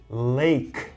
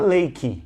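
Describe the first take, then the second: First: The word ends on its final consonant sound. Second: The word ends with an added ee vowel. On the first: The speaker calls it right. "we say lake" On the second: The speaker calls it wrong. "Not lakey"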